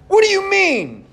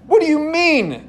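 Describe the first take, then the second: First: The question is exclaimed loudly with strong emphasis. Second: The question is said calmly, without much force.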